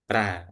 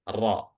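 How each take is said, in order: First: The r is thin, with the back of the tongue not raised. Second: The r is thick, with the back of the tongue raised. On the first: The speaker calls it wrong. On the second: The speaker calls it right. "tebalnya ro itu bagaimana? Mengangkat lidah bagian belakang"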